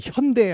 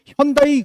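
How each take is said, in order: First: 현대 ending in a single "dae" vowel; corrected Korean pronunciation. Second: 현다이 ending in "da-i", as foreigners say it; imitated foreign way of saying 현다이; foreign mispronunciation. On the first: Retold or imitated. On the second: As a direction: say 현다이, stretching the end into "dai". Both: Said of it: "막 이렇게 일정을 했어요".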